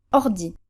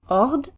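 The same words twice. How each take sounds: First: "ordi" with a short, light first syllable, stress on the final i; short unstressed R. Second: "Ord" as one long stressed syllable with French R. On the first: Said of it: "first syllable in our new position is shorter". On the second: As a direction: lean on the R in "Ord". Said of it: "one where the R is stressed". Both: Shown as a demonstration.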